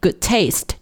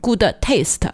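First: The d of good is dropped into the t. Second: The d of good is released separately. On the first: The speaker calls it right. "读一遍 good taste 就可以了" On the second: The speaker calls it wrong. "你不需要读成 good taste, 不需要读两遍"

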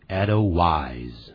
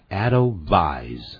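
First: The w is pronounced like an English w. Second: The w is pronounced like a v. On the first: The speaker calls it wrong. "不注意可能会念成Edelweiss，那个W 不能发成W 的音" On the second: The speaker calls it right. "而要发成V 的音，所以它实际的念法叫Edelweiss"

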